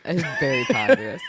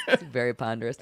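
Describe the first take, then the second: First: Squeaky laughing repeat of very ponderous; giggling through very ponderous; laughing echo. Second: Said in the usual way. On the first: Real, not acted. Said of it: "man, ponderous".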